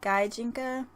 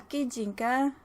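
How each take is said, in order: First: It is pronounced the American way. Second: It is pronounced the Japanese way. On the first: "here in America we pronounce it" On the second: "in actual Japanese"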